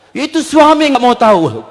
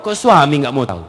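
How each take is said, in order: First: High, louder-edged mock grievance; complaining woman. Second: Said in the usual way. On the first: Wife grumbling to the ustadz, high-pitched complaint. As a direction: imitate a wife protesting about her husband. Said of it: "Perempuan mengatakan".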